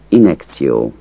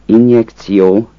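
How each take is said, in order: First: Injekció with the j dropped, in-ek-tsi-o; casual injekció without the j; relaxed injekció. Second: Injekció with a clear j sound, in-yek-tsi-o; injekció with the j kept; careful injekció. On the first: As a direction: say injekció swallowing the j. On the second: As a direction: say injekció pronouncing the j fully. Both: Shown as a demonstration. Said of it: "Azt a kiejtés változatot".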